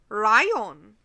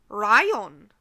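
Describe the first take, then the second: No difference in how they are said.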